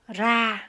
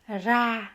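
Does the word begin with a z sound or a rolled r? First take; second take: rolled r; rolled r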